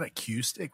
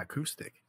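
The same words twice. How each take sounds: First: "acoustic" with cue in the middle; a-CUE-stic, mimicking the mistake; wrong "acoustic". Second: "acoustic" with coup in the middle; a-COO-stic, correcting someone. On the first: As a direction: say "acoustic" as uh-KYOO-stick. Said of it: "not a cue". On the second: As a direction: softly say "acoustic" as uh-KOO-stick. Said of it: "Like coup". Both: Shown as a demonstration.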